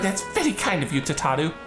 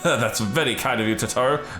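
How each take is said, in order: First: It is said in Tataru's character voice. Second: It is said in another character's voice.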